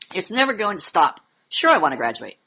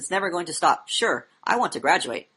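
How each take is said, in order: First: It is read with lively, personal expression. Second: It is read in a flat, recited cadence. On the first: The speaker feels what they are saying. The speaker calls it right. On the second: It is just conveying dead information. The speaker calls it wrong.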